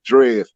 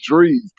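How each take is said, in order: First: The name has a short 'eh' vowel. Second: The name has a long 'ee' vowel. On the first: The speaker calls it wrong. "She called him Drez" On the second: The speaker calls it right. "it's Drees"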